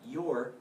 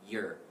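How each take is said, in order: First: The word is said in its full form. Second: The word is said in a reduced form. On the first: The speaker calls it wrong. "not your" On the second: The speaker calls it right. "So we reduce it, but your"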